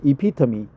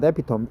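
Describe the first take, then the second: First: "epitome" as ih-PIT-uh-mee, four syllables; the corrected "epitome", final e sounded; correct pronunciation. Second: "epitome" in three syllables, ending like "tome"; the wrong reading, "epitome" rhyming with home; mispronounced. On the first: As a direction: stress the second syllable of "epitome", ending in "mee". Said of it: "Not epitome, epitome". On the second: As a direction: say "epitome" as EP-i-tome, silent final e. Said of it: "I forgot the pronunciation". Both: Shown as a demonstration.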